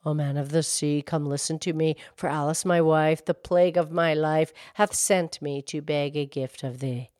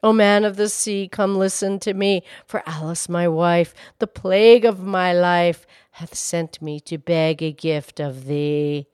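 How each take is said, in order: First: Low, soft, even incantation; hushed verse to the sea; subdued calling rhyme. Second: Firmer, projected summons in verse; steady incantation with more force; calling rhyme. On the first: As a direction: recite the summons low and softly, barely calling. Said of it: "and he called out". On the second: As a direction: call the verse out over a gale, dropping off at the end. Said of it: "he called to the fish". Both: A narrator's reading.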